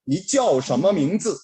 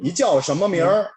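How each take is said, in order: First: The last word is a full 'mingzi'. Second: The last word is a short r-colored 'mingr'. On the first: This is the standard way to ask. "이렇게 물어보는 게 표준어예요" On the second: This is how people from Beijing ask. "이즈를 빼버리고요. 얼화를 비춰요"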